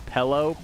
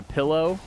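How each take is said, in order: First: Pillow said as "PELL-oh"; mispronounced pillow. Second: Said in the usual way. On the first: Shown as a demonstration. Streamer showing how they got teased, pillow as "pellow". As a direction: say pillow with an "eh" in the first syllable. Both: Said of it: "made fun of for saying".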